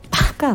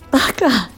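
First: It is said in a fond, teasing tone. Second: It is said in a tearful, crying voice. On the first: The speaker finds the other person endearing. "可愛いやつめみたいなものも含んだバカ" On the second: The speaker is hurt or upset. "今ちょっと泣き顔で言ってみましたけれども"

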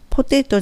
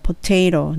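First: The last syllable has a clear Japanese t sound. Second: The last syllable has a soft l-like flap. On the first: The speaker calls it wrong. "ポテトじゃなくて" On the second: The speaker calls it right. "最後のトの部分はほぼほぼl の音でローになってOK です"

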